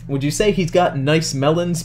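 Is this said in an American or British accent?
American. It is said in the speaker's normal accent. The speaker calls it wrong.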